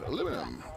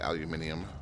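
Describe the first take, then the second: First: It is said the American way, aluminum. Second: It is said the British way, aluminium.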